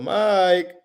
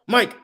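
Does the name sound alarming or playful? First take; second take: playful; alarming. First: The name is called in a playful, friendly tone. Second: The name is called in an alarming, urgent tone. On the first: Something fun is happening. "You'll be more playful" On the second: Something may be wrong. "you're gonna be like, whoa, what's going on?"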